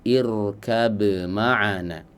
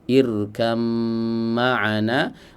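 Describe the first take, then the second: First: The b is pronounced clearly before the m. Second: The b merges into the m, heard as m. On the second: "di diidgham"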